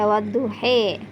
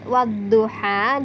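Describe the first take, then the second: First: The final vowel is tilted toward e. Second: The final vowel is a clear open a.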